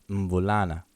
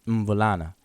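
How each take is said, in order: The two takes are said the same way.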